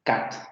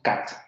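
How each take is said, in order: The two takes are said the same way.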